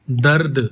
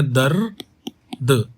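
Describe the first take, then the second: First: Said in the usual way. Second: "दर्द" stretched very slowly, dar then d; very slow "दर्द" demo; drawn-out pronunciation. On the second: Shown as a demonstration. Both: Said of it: "इसको कैसे बोलेंगे".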